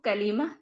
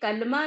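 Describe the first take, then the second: First: A long 'ee' vowel sits between L and M. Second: There is no vowel between L and M. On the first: The speaker calls it right. "उसको कलीमा कहेंगे" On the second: The speaker calls it wrong. "कलमा मत कहा करिए"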